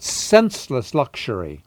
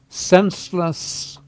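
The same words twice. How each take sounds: First: Said in the usual way. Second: Senseless said higher and slow, each syllable weighted; emphasized word. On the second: Shown as a demonstration. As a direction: lean hard on senseless, drawn out. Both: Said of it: "I emphasize the word senseless".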